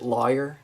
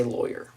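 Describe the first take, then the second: First: "lawyer" said as LAW-yer; Northern pronunciation. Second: Said in the usual way. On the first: Shown as a demonstration. Showing how Northerners say "lawyer", Northern pronunciation. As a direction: open first vowel in "lawyer", as in law. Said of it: "some people from the North correctly pronounce it". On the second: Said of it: "but I say lawyer".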